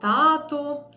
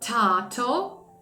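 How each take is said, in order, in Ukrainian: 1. Перший приголосний не має видиху. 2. Перший приголосний має видих. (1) "Ми скажемо «тато»" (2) "а він скаже «тато»"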